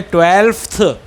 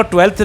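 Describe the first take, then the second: First: ट्वेल्फ्थ with a clear f before the th; ट्वेल्फ्थ said carefully, f sounded, tvelfth; correct twelfth. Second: ट्वेल्थ said without the f sound, as tvelth; the mistaken ट्वेल्थ, f dropped before th; wrong twelfth. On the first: Teacher modelling the right ट्वेल्फ्थ, with the f sound. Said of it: "ट्वेल्थ का pronunciation देख लो". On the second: Teacher showing the wrong ट्वेल्थ with no f to students. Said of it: "ट्वेल्थ नहीं बोलते हैं". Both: Shown as a demonstration.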